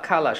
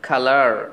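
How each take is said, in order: First: It ends without an r sound. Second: It ends with a clear r sound. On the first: "যখন British বলছি তখন খালা" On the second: "American বলতেছি কালার"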